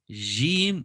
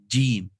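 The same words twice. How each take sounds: First: The j sound is soft and weak. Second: The j sound is firm and hits hard. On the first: The speaker calls it wrong. "people do not make it firm enough" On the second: The speaker calls it right. "it needs to be more firmer"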